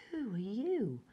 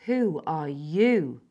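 First: Softer, faltering ask; weak question. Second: Louder, slow and firm; firm and determined. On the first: Frightened child facing a stranger, weak voice. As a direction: say it weakly, unsure. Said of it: "I said weakly". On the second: Wild girl challenging the intruder, firm demand. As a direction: demand it back, unyielding. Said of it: "Her voice was firm and determined". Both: A narrator's reading.

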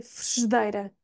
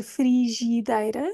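First: Frigideira with both i sounds dropped, frgdeira; correct pronunciation. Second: Frigideira with both i sounds said in full; wrong pronunciation. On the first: Teacher giving the right frigideira, both i sounds dropped. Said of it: "Eu não pronuncio nenhum". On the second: Teacher showing the wrong frigideira, both i sounds kept. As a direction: say every i of frigideira. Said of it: "Eu não vou dizer". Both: Shown as a demonstration.

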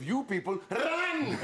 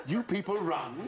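First: High call with a long, falling "run"; exclaimed RUN. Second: "You people run" slowly, rising at the end; drawn-out repeat. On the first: Acted. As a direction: stretch "run" into a high mock yell. Repeats the offensive line, heightened. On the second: Retold or imitated. Adviser repeating to the pupil, slow rising "run". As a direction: stretch out "run" with a questioning lift.

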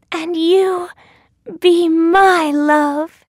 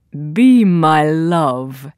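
First: High, slow heroine voice; Thumbelina. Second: Low, slow princely voice; storybook prince. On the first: Returning the prince's proposal, high slow heroine voice. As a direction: answer high and draw it out. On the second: Prince proposing to Thumbelina, low slow voice. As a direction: drop low and draw it out as a prince. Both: A narrator's reading.

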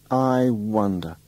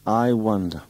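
First: Drawn out slowly, I wonder; slow musing. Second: Said in the usual way. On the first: Acted. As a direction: linger over I wonder, slowly.

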